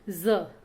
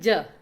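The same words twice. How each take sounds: First: The consonant is a buzzing z sound. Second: The consonant is a plain j sound. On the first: "इसके लिए हमारे मुख से अलग से ध्वनि निकलती है" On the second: "हम नॉर्मल जब बोलते हैं साधारण"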